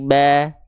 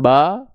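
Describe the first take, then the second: First: The vowel is said with lips spread in a smile. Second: The vowel is said with a plain open mouth. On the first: The speaker calls it right. "buka mulutnya ada senyum sedikit" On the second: The speaker calls it wrong.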